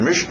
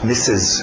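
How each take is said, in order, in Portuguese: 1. A palavra é dita com som de R. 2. A palavra é dita sem nenhum som de R. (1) "E você vai querer dizer Mister, Mister, Mister, Mister, algum R" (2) "Não tem R. Cuidado com a sua pronúncia"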